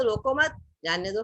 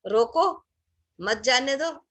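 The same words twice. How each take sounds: First: रोको मत run together, then जाने दो; group रोको मत as one phrase, then release जाने दो; pause after मत. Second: रोको on its own, firm, then a break before मत जाने दो; pause after रोको. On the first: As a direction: put the comma after मत, before जाने दो. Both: Shown as a demonstration. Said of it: "पे कॉमा लगा दिया".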